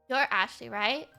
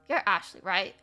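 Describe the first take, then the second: Both takes have the same delivery.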